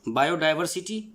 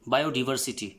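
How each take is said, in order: First: It is said in a British accent. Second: It is said in an American accent. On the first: "बायोडाइवर्सिटी British accent है" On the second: "बायोडिवर्सिटी American accent है"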